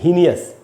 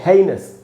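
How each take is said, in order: First: The word is said with three syllables. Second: The word is said with two syllables. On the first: The speaker calls it wrong. "लोग ऐसे पढ़ लेते हैं" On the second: The speaker calls it right. "इसको हम पढ़ते हैं"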